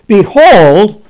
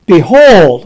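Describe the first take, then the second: First: Loud "Behold" with a rising end; emphatic behold. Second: Loud, punched "Behold"; emphatic behold. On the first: Preacher reading the Ethiopian passage aloud, "Behold" loud and rising. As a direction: lift "Behold" up and hold the surprise. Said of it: "the word behold, this indicates a big thing". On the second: Preacher reading scripture to the congregation, a loud emphatic "Behold". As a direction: hit "Behold" hard, like a trumpet call. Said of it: "oh, the word behold, this indicates a big thing". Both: Shown as a demonstration.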